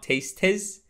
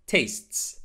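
First: TASTES in two syllables, "tayst-iz"; mispronounced tastes. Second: TASTES in one syllable, "taysts"; correct tastes. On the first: Teacher showing the mistake, tastes as tayst-iz. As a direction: add an extra vowel to "tastes". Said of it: "this one is not tastes". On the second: Teacher modelling tastes, just an s added at end. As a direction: finish "tastes" on a crisp STS cluster. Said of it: "add a simple sound of s". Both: Shown as a demonstration.

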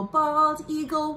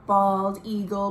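First: Sing-song call. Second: Said in the usual way. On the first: Shown as a demonstration.

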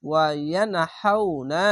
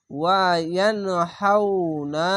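First: ওয়া ইয়ানহাউনা read slowly; slow even reading of ইয়ানহাউনা; tajweed ইয়ানহাউনা; recitation after spelling. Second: ওয়া ইয়ানহাউনা drawn out; slow chanted ইয়ানহাউনা; slow recitation. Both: Shown as a demonstration. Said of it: "reading পড়বেন".

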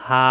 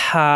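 First: "হা" with the mouth left open; light open "হা", no throat pressure. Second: "হা" squeezed from mid-throat with hissing air; warm-breath, rasping throat "হা"; pressed throat. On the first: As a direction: let "হা" out freely, open-mouthed. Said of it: "মুখ খোলা রেখে উচ্চারণ". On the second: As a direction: press the throat for a friction-heavy "হা". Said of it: "চাপ দিয়ে উচ্চারণ". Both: Shown as a demonstration.

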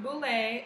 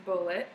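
First: Bouley in French style, ending in "lay"; mispronounced Bouley. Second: Bulleit said just like the word "bullet"; correct Bulleit pronunciation. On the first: Correcting viewers on the rye's name, mispronounced Bouley. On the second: Correcting viewers on the rye's name, Bulleit like "bullet". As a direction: say Bulleit with a plain "it" ending. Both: Shown as a demonstration. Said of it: "It's not Bouley, it's Bulleit".

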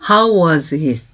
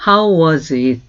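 The two takes are said the same way.

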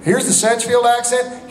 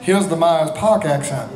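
First: Higher-pitched Sedgefield Southern accent. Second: Myers Park Southern accent, R's softened; r-dropping North Carolina Myers Park speech. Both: Shown as a demonstration.

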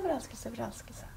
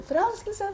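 First: Softer echo, far below the call. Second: High-pitched call. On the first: Medium imitates the shouted word coming back, soft echo. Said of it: "så er det ekko". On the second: Medium shows client the next word to shout, calling out. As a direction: send the word out high over the mountains. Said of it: "Og så roper du". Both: Acted.

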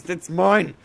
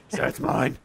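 First: Whiny and pitched up; possessive whining. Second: Said in the usual way. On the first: Acted. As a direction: whine over the loot. Claiming loot, repeated.

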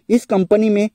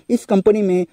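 Both takes have the same delivery.

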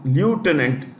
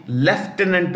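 First: "lieutenant" said American-style as loo-tenant; American pronunciation. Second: "lieutenant" said British-style as lef-tenant; British pronunciation. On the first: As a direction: open "lieutenant" with a "lyoo" sound, no F. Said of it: "the way I pronounce that word". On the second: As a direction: open "lieutenant" with "lef", F sounded. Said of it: "You can say lieutenant also". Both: Shown as a demonstration.

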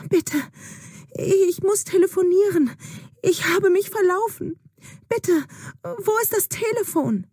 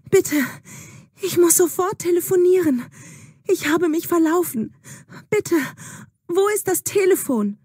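First: High, urgent begging for a phone; frightened girl repeating her plea to the old woman; desperate pleading. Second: High, urgent begging for a phone; frightened girl begging at a stranger's door; desperate pleading. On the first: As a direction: plead much higher, lost and scared. Juna begs the old woman again. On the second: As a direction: plead breathlessly, much higher, lost and scared. Lost Juna begs at hut door. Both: Acted.

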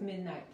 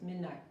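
First: "midnight" with the last T clearly released; sounded final T. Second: "midnight" with the final T swallowed, unreleased; barely heard T. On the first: Teacher showing students what to avoid, released T ending "midnight". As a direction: finish "midnight" on an overdone, audible T. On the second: Teacher correcting students, barely audible final T in "midnight". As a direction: end "midnight" on a stopped, almost silent T. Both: Shown as a demonstration. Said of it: "la T casi no se escucha".

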